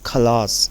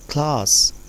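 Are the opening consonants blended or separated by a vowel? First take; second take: separated; blended. First: A vowel separates the opening k and l. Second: The opening k and l are blended together. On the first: The speaker calls it wrong. "अगर आप इसको थोड़ा सा differentiate करेंगे" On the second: The speaker calls it right. "ये blend हो गया, अच्छे से ब्लेंड हो गया"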